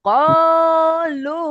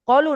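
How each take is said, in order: First: The first vowel is drawn out for one beat. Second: The first vowel is short, not drawn out. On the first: The speaker calls it right. "এক আলিফ পরিমাণ টান দিয়েই পড়তে হবে" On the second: The speaker calls it wrong. "কলু না"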